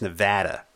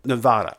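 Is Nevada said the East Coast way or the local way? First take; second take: local; East Coast. First: Nevada is said the local Nevada way. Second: Nevada is said the East Coast way.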